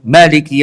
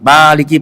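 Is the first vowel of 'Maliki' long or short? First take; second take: short; long. First: The first vowel of Maliki is short. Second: The first vowel of Maliki is lengthened. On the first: It means king. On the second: It means the one who owns.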